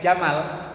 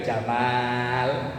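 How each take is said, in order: First: The vowel after the m is kept short. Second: The vowel after the m is held long. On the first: It means camel. "mimnya pendek" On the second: It means handsome or dashing. "mimnya dibaca panjang"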